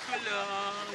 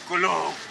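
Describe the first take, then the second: First: It is said in a light, effeminate voice. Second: It is said in a deep, manly voice. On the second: "let's go first with the man thunder"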